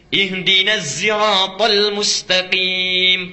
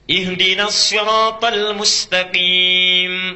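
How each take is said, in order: First: The word sirat begins with a Z sound. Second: The word sirat begins with an emphatic S. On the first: "pakai zai" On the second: "Pakai sod, riwayat Hafiz"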